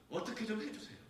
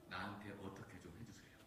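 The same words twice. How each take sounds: First: High, loud desperate plea "어떻게 좀 해주세요"; desperate cry. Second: Said in the usual way. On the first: Acted. Desperate prayer cried out. (절박하게 높고 크게 외치는 기도)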